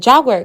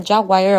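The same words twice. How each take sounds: First: Jaguar said as JAG-wer; two-syllable Jaguar. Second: Jaguar said as JAG-wire; three-syllable Jaguar. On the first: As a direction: finish Jaguar with a short "wer". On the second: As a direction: finish Jaguar with "why-er". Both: Shown as a demonstration. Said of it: "check the pronunciation".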